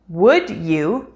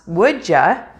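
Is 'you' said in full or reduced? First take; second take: full; reduced. First: The word 'you' is said fully and separately. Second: The word 'you' is reduced to a weak 'ya'.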